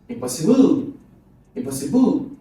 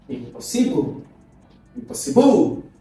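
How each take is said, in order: No difference in how they are said.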